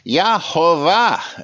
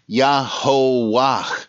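First: The name is said with a German v sound. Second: The name is said with a plain w sound.

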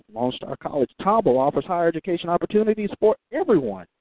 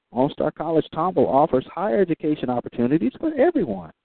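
The two takes are said the same way.

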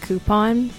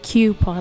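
First: The word begins with a plain 'koo' sound. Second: The word begins with a 'kyoo' sound. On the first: This is how people outside Pittsburgh say it. "I'm very impressed with your pronunciation of the word coupon" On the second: This is how people from Pittsburgh say it. "every Pittsburgher I know says coupon with it, like coupon, like Cupid"

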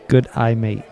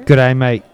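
First: It is said at a normal speed. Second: It is said very fast.

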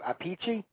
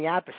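First: The name has an Italian pronunciation. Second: The name has an anglicized, American pronunciation.

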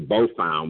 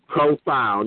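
First: The word begins with a B sound. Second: The word begins with a PR sound. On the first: The speaker calls it wrong. "I used to say bofound" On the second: The speaker calls it right. "So I'm going to say it right"

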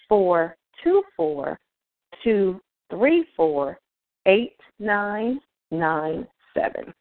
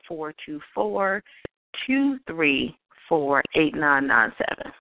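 First: The number is said nice and slowly. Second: The number is said at normal speed.

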